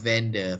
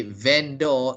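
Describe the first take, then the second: First: VENDOR said "VEN-duh"; correct pronunciation. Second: VENDOR said "VEN-dor", full "or" vowel; Malaysian mispronunciation. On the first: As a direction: weaken the second syllable of VENDOR to a schwa. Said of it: "they say vendor instead". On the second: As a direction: round out the end of VENDOR to "dor". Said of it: "they pronounce the word wrongly". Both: Shown as a demonstration.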